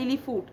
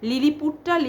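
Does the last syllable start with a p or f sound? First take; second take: f; p. First: The last syllable starts with an f sound. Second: The last syllable starts with a p sound. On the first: The speaker calls it wrong. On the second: The speaker calls it right.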